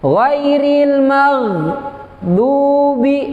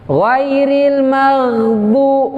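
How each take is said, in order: First: There is a brief stop inside the word. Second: The word flows on without any stop. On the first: The speaker calls it wrong. "itu ada saktah, ditahan sebentar atau berhenti sebentar. Itu juga keliru" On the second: The speaker calls it right. "Mestinya dia adalah mengalir. ... langsung"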